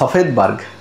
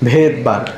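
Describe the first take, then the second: First: The name begins with an s sound. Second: The name begins without an s sound. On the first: "উচ্চারণটা হয় সফেদবার্গ" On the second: "কিন্তু এস এর উচ্চারণ থাকে না, এই জন্য হয় কি ভেদবার্গ"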